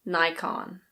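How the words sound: It is said with an American pronunciation. "In American English, it's actually quite different"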